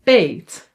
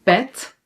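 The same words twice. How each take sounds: First: "peet" with a long Dutch ee, like "pate"; "peet" held on an "ay" vowel. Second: "pet" with a short e; "pet" said with a quick "eh"; short vowel. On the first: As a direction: draw out "peet" as "payt". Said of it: "for a long sound". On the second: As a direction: keep the e in "pet" brief. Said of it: "one letter for a short sound". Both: Shown as a demonstration.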